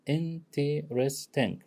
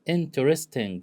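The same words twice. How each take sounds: First: "Interesting" drawn out slowly so each of its four syllables is heard; slow syllable demo. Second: Said in the usual way. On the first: Shown as a demonstration. Teacher slowly spells out "Interesting" syllable by syllable for the class. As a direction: say "Interesting" slowly, laying out in-ter-est-ing. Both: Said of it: "four syllables".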